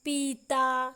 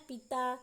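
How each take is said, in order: First: पीता with a long, loud, drawn-out ee. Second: पिता with a quick, short i in the first syllable. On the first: Teacher contrasting vowel length for learners, long ee in पीता. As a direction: stretch the first vowel of पीता and push it louder. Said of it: "बड़ी ई वाले मात्रा में ज़्यादा समय". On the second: Teacher showing learners the short vowel, short i in पिता. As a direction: say पिता briefly, without stretching the i. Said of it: "छोटी ई वाले मात्रा में कम समय". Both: Shown as a demonstration.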